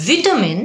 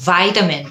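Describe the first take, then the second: First: "ভিটামিন" as VIT-a-min, pitched up; short I in "ভিটামিন"; British pronunciation. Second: "ভাইটামিন" as VY-ta-min; long EYE in "ভাইটামিন"; American pronunciation. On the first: Teacher asks learners which is right, "ভিটামিন" as British VIT-a-min. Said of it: "British উচ্চারণ". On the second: Teacher gives learners the alternative, "ভাইটামিন" as American VY-ta-min. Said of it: "American". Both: Shown as a demonstration.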